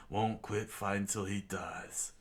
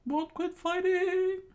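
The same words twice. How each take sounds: First: Said in the usual way. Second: Very high, loud, slow squeaky echo; Sanji echoing. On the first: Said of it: "Zaf said to Sanji". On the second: A narrator's reading. Sanji repeating Zaf's words, high loud squeak. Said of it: "Sanji said".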